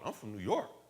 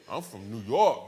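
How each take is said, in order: First: It is said in the speaker's plain accent. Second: It is said in a put-on Brooklyn accent.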